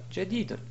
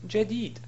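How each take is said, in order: First: The word ends with a full 'un' sound. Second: The word ends abruptly on the 'd' sound. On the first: The speaker calls it wrong. "et non pas jadidun" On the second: The speaker calls it right. "Si on s'arrête sur la phrase, on dit"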